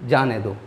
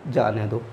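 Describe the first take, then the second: No difference in how they are said.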